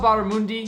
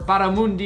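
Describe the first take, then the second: First: The word is pronounced in a plain, ordinary way. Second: The word is pronounced with showy, dramatic flair.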